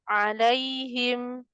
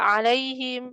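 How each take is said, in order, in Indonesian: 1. Kata itu diucapkan lambat dan santai. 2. Kata itu diucapkan cepat dan tergesa-gesa. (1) "harfulinnya jangan kecepatan" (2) "nggak alaihim"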